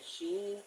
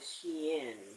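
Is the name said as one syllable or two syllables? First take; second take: one syllable; two syllables. First: The name is said as one syllable, 'sheen'. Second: The name is said as two syllables, 'she-in'. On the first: This is how some other people say it. "somebody calls Shein Sheen" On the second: This is how the speaker has always said it. "I have always called it Shein"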